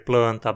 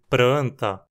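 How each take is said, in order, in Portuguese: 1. A consoante depois do P é um L. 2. A consoante depois do P é um R. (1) "no lugar de" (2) "pessoas falando"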